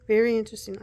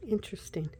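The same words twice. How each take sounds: First: "Very interesting" much louder, weight on "Very"; emphatic. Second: Said in the usual way. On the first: Real, not acted. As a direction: lean hard on "Very". Louder retake.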